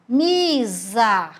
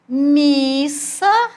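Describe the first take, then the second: First: The middle consonant is a buzzing Z sound. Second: The middle consonant is a hissing S sound. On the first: "ele ia ficar com o som de Z" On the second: "o som de S"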